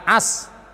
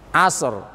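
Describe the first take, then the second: First: The word ends on s with no r. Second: The word ends with an audible r sound. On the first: The speaker calls it wrong. "Jangan as, ro tidak ke bawah, berubah makna" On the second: The speaker calls it right. "sod mati, ro-nya juga mati"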